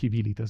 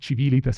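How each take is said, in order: First: The word begins with a 'k' sound. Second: The word begins with a 'ch' sound. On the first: This is the restored classical pronunciation. The speaker calls it wrong. "y no civilitas, me suena tremendo civilitas. O kiwilitas" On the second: This is the church Latin pronunciation taught in Italian schools. The speaker calls it right. "Para mí es civilitas"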